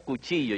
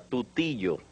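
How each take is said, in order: First: The word begins with a k sound. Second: The word begins with a t sound. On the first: "Yo no decía cuchillo" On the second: "yo decía tutillo"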